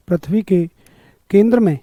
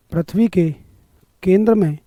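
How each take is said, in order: Both takes have the same delivery.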